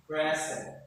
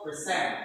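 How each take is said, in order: First: "present" stressed on the first syllable, PRE-sent. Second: "present" stressed on the second syllable, pre-SENT. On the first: Teacher models noun rule for class, first-syllable stress. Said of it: "this stress is on the what? First syllable". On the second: Teacher models verb rule for class, second-syllable stress. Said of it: "Second syllable. So for example". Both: Shown as a demonstration.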